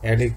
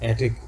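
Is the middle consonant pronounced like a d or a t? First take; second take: d; t. First: The middle consonant sounds like a d. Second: The middle consonant is a clear t sound.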